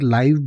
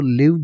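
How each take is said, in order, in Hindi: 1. स्वर एक लंबी 'eye' ध्वनि है। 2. स्वर एक छोटी 'ih' ध्वनि है। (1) "और लाइव भी बोला जाता है" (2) "इस वर्ड को लिव भी बोला जाता है"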